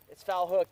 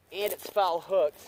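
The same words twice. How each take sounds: First: Said in the usual way. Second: Slow, leaning hard on "foul hooked"; stress on foul. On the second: Shown as a demonstration. Explaining the catch to viewers, slow stressed. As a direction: draw out "foul" with weight. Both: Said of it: "That means the hook is not".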